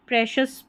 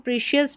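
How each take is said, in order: First: The first vowel sounds like a short 'eh'. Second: The first vowel sounds like a long 'ee'. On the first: The speaker calls it right. "प्रेशियस पढ़ देना" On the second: The speaker calls it wrong. "कई लोग इसको प्रीशियस भी पढ़ देते हैं"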